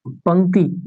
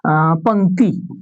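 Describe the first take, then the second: First: Said in the usual way. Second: पंक्ति slowly with a clear final ई; careful teacher demo of पंक्ति ending in ई. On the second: Shown as a demonstration. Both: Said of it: "ई उच्चारण हो रहा है मुंह से".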